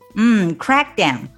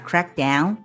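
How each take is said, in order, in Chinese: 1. 重音在第一部分，crack。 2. 重音在第二部分，down。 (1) "要重读的是前面的这个crack" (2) "重读这个down"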